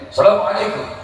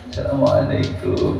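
First: It is said loudly with a high pitch. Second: It is said quietly and low, humbly.

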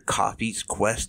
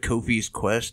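First: The name is said in an altered way. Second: The name is said in the ordinary way. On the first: The speaker calls it wrong. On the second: The speaker calls it right.

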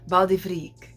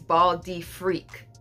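First: The name is said quickly with French pronunciation. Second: The name is said slowly and plainly. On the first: "you gotta say it like that, you know, French" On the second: "when I slow it down"

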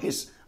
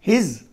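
First: The word ends with a hissing S sound. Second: The word ends with a buzzing Z sound. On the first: The speaker calls it wrong. "not his" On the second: The speaker calls it right. "but his"

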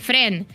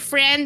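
First: The word is pronounced in a Panamanian Spanish way. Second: The word is pronounced as in English. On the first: The speaker calls it wrong. "dicen Fren" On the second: The speaker calls it right. "en vez de decir friend"

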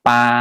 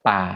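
First: The syllable is said with a mid level tone. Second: The syllable is said with a low tone. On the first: "ส่วนไม่มีรูปเรียกว่าเสียงสามัญ" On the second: "ไม่เอกป่า"

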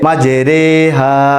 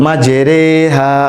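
Both takes have the same delivery.

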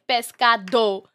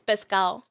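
First: The d sound in the middle is pronounced. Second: The d sound in the middle is dropped. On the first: "instead of saying pescado, it's too much" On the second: "we eat the D"

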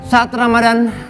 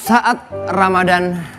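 First: The line is read in a bright, cheerful way. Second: The line is read in a plain, subdued way. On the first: The speaker calls it right. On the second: The speaker calls it wrong.

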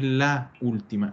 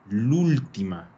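First: The article is said separately before ultima. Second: The article is merged into ultima. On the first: The speaker calls it wrong. "non è la ultima" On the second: The speaker calls it right. "è l'ultima"

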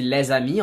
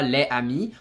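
First: The s is linked to amis as z. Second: The two words are said separately, unlinked. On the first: The speaker calls it right. "Quand on dit les amis" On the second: The speaker calls it wrong. "on dit pas les amis"

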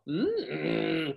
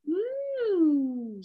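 First: The hum ends with a growl. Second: The hum is smooth with no growl.

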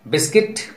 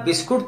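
First: The second syllable sounds like kit. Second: The second syllable sounds like koot. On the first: The speaker calls it right. "यू silent हो जाता है" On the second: The speaker calls it wrong. "इसे आप बिस्कुट तो नहीं बोलेंगे"

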